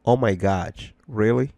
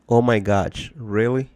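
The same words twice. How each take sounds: The two takes are said the same way.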